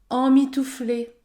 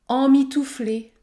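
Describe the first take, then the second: Both takes have the same delivery.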